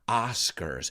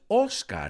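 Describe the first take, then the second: First: The first vowel is an open 'ah' sound. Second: The first vowel is a rounded 'oh' sound. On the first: The speaker calls it right. "sino ah" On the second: The speaker calls it wrong. "no es Oscar en inglés"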